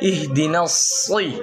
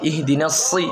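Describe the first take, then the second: First: The s sound is thick and heavy. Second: The s sound is thin and light. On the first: The speaker calls it right. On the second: The speaker calls it wrong.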